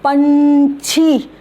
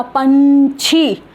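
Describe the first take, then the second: First: पंछी stretched with a throat nasal, not न; slow demo pronunciation. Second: पंछी repeated slowly, nasal not न; again stretch पंछी, nasal from the throat; slow demo pronunciation. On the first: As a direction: draw out पंछी without a न sound. (पंछी को धीरे, न के बिना बोलना) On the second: (पंछी को धीरे, न की आवाज़ नहीं) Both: Shown as a demonstration. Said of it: "न नहीं होगा, पंछी".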